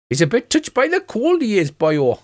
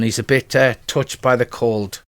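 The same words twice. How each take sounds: First: High, lilting mock-Welsh dwarf; hammed-up Welsh singsong; Welsh accent. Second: Said in the usual way. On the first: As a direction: put on a broad Welsh accent. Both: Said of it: "I should be doing a Welsh accent".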